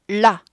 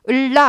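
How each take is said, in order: First: The vowel before 'la' is only a lip shape. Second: A full vowel is heard before the 'la'. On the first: The speaker calls it right. "십분의 일 박자로 아주 짧게 해야 돼요. 그러니까 입 모양만 해줘야 돼요" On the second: The speaker calls it wrong. "을라 아니고"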